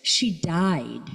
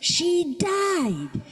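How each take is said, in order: First: It is said in a raised voice. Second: It is screamed at the top of the voice.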